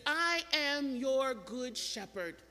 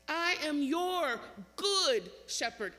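First: Said in the usual way. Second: Slow, with "good" drawn out loud; "good" stretched and swelling before "shepherd"; stress on GOOD. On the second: Shown as a demonstration. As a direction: lean long and hard on "good". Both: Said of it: "Emphasis on the word good".

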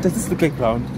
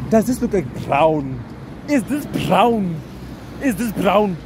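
First: Said in the usual way. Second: Slow, high baffled questions, a bit louder; baffled disbelief. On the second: Real, not acted. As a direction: drag out each word in disbelief. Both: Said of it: "I was baffled".

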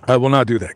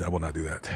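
First: Said in the usual way. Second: Much softer, lower mock refusal; hushed refusal. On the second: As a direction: breathe it out as if a spirit might hear.

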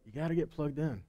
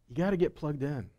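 Both takes have the same delivery.

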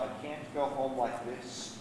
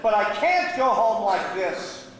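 First: Low, hushed, slow admission; saying to himself. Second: Slow, forceful self-reproach; emphatic refusal. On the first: Gambler alone thinking of home, quietly to himself. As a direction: murmur it slowly, as a private thought. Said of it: "but he said to himself". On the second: Gambler refusing to return broke, emphatically. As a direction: drive it home, slowly and firmly. Same thought repeated with force. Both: Acted.

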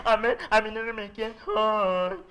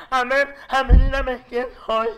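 First: Slow mock nasal mumble; "A ver, a mí dígame quién soy" slurred through the nose, very slow; nasal gangoso voice. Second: Imitating a nasal speech impediment, slow; "A ver, a mí dígame quién soy" mumbled through the nose, slurred and slow; nasal gangoso voice. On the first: Friend covering their eyes, a slow mock nasal voice. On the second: Joke about a school friend, in a slow mock nasal voice. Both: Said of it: "las personas gangosas".

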